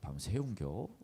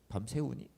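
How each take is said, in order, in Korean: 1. 충청도 방언으로 말한 것입니다. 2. 표준 한국어로 말한 것입니다. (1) "충청 스타일로 바꿨어요" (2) "원래는 제목이 그거였어요"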